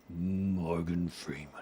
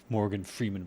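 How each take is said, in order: First: Slow attempt at Morgan Freeman. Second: Said in the usual way. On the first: Shown as a demonstration. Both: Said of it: "I wish I had a deep Morgan Freeman voice".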